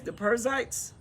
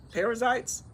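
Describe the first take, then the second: First: "Perizzites" squeezed into PUR-zites; slurred pronunciation. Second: "Perizzites" as PAIR-uh-zites; corrected pronunciation. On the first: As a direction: say "Perizzites" with the middle syllable swallowed. Corrects own reading of the name. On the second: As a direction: sound out all three syllables of "Perizzites". Repeats the name fully sounded. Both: Real, not acted.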